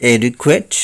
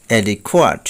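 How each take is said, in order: First: অ্যাডিকুয়েট ending in "kwet"; common mispronunciation. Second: অ্যাডিকুয়েট ending in "khoat"; corrected pronunciation. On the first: Teacher showing the common way, অ্যাডিকুয়েট with "kwet". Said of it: "বলে থাকি". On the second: Teacher correcting learners, অ্যাডিকুয়েট with "khwat". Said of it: "সঠিক উচ্চারণ হবে". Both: Shown as a demonstration.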